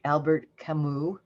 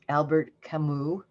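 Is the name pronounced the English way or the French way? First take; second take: English; English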